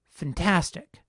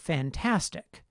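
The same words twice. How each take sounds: First: The first vowel is reduced to a schwa. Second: The first vowel keeps its full 'a' sound. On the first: "some people have started reducing this vowel" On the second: "the vowel in the first syllable retains its quality as A even though it's unstressed"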